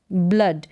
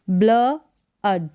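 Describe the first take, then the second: First: Said in the usual way. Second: ब्ल अड split by a pause; ब्ल, then अड with a short uh; sounded out. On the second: Shown as a demonstration. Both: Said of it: "double ओ को अ pronounce करेंगे".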